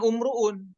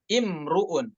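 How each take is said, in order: First: The word begins with a u vowel. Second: The word begins with an i vowel. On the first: The speaker calls it wrong. "bacanya bukan umruun" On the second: The speaker calls it right. "dibacanya dengan imruun ya, ... hamzanya kasroh bukan dhammah"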